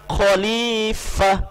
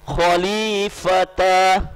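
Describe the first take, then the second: First: The word ends with a soft 'ah' sound. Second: The word ends with a full 'ta' syllable. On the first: The speaker calls it right. "Yang boleh disukunkan di sini adalah khalifat, khalifah" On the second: The speaker calls it wrong. "Tidak boleh kita membaca khalifata, salah"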